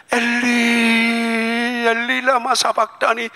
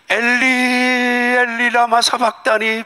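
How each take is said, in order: First: Slow, high, long-held lament; Jesus crying from the cross; drawn-out cry of Jesus. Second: Slow, high, long-held lament; Jesus crying out from the cross; drawn-out cry of Jesus. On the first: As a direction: stretch the words into a lament. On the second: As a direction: stretch each word as an anguished cry. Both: Acted.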